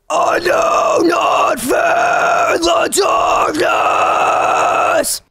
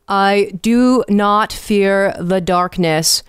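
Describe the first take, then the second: First: The words are drawn out on a continuous breath. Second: The words are short and clipped by consonants.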